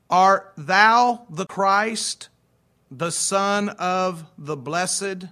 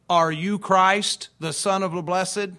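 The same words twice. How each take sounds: First: Slow, deliberate, louder archaic phrasing; solemn King James reading. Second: Said in the usual way. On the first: Shown as a demonstration. Pastor to congregation, slow solemn scripture reading. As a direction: read the old words slowly and weightily. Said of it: "archaic words of the King James". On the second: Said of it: "What that means is".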